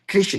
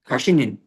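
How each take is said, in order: First: The word ends with a single n syllable. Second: The word ends with a doubled n syllable. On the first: The speaker calls it right. "There's no two nuns. One nun" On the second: The speaker calls it wrong. "I'm pronouncing it wrong"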